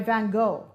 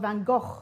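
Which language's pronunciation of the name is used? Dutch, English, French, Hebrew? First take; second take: English; Dutch. First: The name is said the English way. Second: The name is said the Dutch way. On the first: "G H is pronounced go" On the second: "Or in Dutch"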